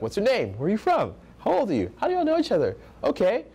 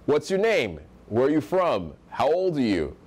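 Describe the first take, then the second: First: High uptalk, "name" and "from" lifted into questions; voice going up. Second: Falling end on "name", "from" and "you"; great tonality. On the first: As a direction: pitch "How old are you?" high and unsure. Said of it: "Voice is going up". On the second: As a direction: ask "What's your name?" with the voice dropping at the end. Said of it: "I'm saying with a great tonality". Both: Shown as a demonstration.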